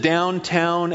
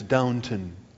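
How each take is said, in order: First: The second syllable sounds like 'town'. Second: The second syllable sounds like a reduced 'tun'. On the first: The speaker calls it wrong. "I pronounce it Downtown Abbey" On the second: The speaker calls it right. "It's Downton, something like that"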